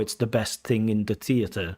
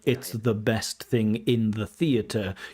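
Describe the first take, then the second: First: The th sounds are replaced by another sound. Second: The th sounds are pronounced as standard th. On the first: "you might say something" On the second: "instead of saying like"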